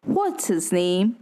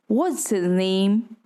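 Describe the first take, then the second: First: What's HIS name with his stressed. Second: "his" swallowed: What's'is name; unstressed his. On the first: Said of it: "is actually not pronounced that way". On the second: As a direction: reduce "his" to a weak quick syllable. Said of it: "His becomes unstressed". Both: Shown as a demonstration.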